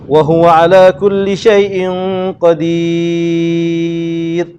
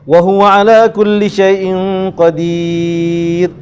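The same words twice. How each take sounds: First: The vowel in the last word is held very long. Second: The vowel in the last word is held moderately long. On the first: "Kalau baca enam, Enam" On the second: "Kalau kita baca panjang, Empat harakat"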